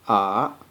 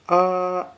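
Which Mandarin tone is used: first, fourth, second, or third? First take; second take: third; first. First: It is said with the third tone. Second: It is said with the first tone. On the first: "The third tone pronounced like ah" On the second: "the first tone pronounced like ah"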